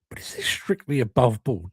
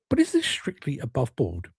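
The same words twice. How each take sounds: First: It is read flatly, without natural expression. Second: It is read expressively, with a natural human tone. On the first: The speaker calls it wrong. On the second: The speaker calls it right.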